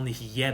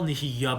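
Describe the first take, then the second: First: The word ends with an 'eh' vowel. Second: The word ends with an 'ah' vowel. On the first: "And some people say you're meant to say" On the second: "the correct pronunciation is ... with a kamatz"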